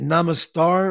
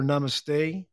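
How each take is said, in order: First: "Namastar" ending in a "star" sound; alternate pronunciation. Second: "Namaste" ending in a "stay" sound; alternate pronunciation. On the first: Host checking a greeting with listener, alternate pronunciation. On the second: Host offering listener the other way, alternate pronunciation. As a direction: say "Namaste" to rhyme with day. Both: Shown as a demonstration. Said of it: "I've heard it said both ways".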